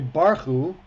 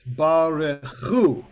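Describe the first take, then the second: First: The stress is on the first syllable. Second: The stress is on the last syllable. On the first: The speaker calls it wrong. "they're also accentuating the first syllable" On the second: The speaker calls it right. "Hu is where the accent is"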